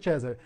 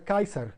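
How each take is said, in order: First: It uses the ecclesiastical Latin pronunciation. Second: It uses the reconstructed ancient Latin pronunciation. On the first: This is the traditional church pronunciation. "em latim eclesiástico seria César" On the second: This is how it was probably said in antiquity. "provavelmente a pronúncia original do latim na antiguidade, era Kaiser"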